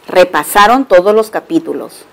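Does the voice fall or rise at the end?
falls. The voice falls at the end like a statement. It states that they reviewed the chapters. "también se puede pronunciar como una afirmación"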